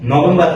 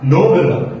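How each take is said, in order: First: It is said in a Bengali-English style. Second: It is said in an English-style pronunciation. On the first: The speaker calls it wrong. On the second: The speaker calls it right.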